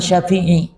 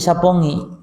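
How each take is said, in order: First: The middle has an f sound and a throat sound. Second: The middle has a p sound and an ng sound. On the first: The speaker calls it right. "Ternyata maksudnya itu adalah Syafi'i" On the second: The speaker calls it wrong. "karena lidahnya tadi menjadi Sapongi"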